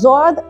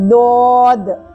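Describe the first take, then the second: First: It begins with a j sound. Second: It begins with a heavy, thick d sound. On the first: The speaker calls it wrong. "దీన్ని జాద్ అనడం సరైన పద్ధతి కాదు" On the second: The speaker calls it right. "దీని యొక్క correct pronunciation ఏంటి అంటే"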